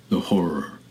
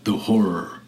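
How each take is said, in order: First: Breathy whisper of the horror, dropping away; eerie echoing whisper. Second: Said in the usual way. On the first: A narrator's reading. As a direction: whisper it like the wind. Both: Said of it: "repeating them in a persistent whisper".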